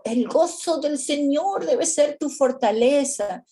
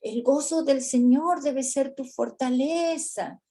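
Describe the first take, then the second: First: Higher, louder pointed quote; "gozo" punched in a mock preachy, challenging tone; turning it back. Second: Higher, upbeat preachy quote; "gozo" stressed in a lightly hammed-up preacher tone; mock pep talk. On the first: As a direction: throw the verse right back at them. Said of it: "A ver si yo le digo". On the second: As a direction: recite the verse brightly as a cheer. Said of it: "Otras veces le decimos".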